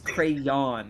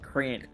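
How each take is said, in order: First: The O is sounded as its own syllable. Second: It is squeezed into one syllable, like crown. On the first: The speaker calls it right. "It has an O, so it's crayon" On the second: The speaker calls it wrong. "not crayon"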